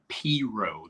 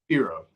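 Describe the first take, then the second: First: The word is drawn out slowly. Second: The word is said quickly. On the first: This is how people from up north say it. The speaker calls it wrong. "they like pronounce it P-Row. They say it's slow" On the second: Nobody can tell exactly how it was pronounced. The speaker calls it right. "you have to say it fast enough"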